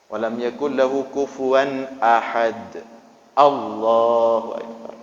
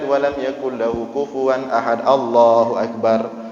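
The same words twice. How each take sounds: First: A clear pause comes before the takbir. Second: The takbir runs straight on without a pause. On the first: The takbir is separate from the surah. The speaker calls it right. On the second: The takbir sounds like part of the surah. The speaker calls it wrong. "seolah-olah Allah akbar bagian daripada al-ikhlas"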